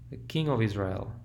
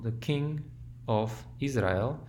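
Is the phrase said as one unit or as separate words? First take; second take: one unit; separate words. First: It is said as one unit, stressed at the end. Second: It is said as separately stressed words. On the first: The speaker calls it right. "We do the same thing in English" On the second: The speaker calls it wrong. "This is not the king of Israel"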